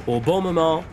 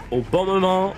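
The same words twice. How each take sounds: The two takes are said the same way.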